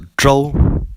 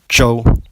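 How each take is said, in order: First: The first consonant is a J sound with R merged. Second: The first consonant is a plain English J sound. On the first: The speaker calls it right. "It is pronounced as Zhou" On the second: The speaker calls it wrong. "instead of Zhou"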